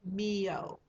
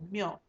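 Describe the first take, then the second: First: It is split into two separate syllables. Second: It is squeezed together into one syllable. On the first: The speaker calls it wrong. "make the mistake of wanting to say like um" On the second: The speaker calls it right. "you have to kind of squish that into one syllable"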